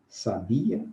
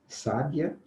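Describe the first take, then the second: First: The stress is on the second syllable. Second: The stress is on the first syllable. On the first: It is a verb meaning knew. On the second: It names a wise woman or means wise.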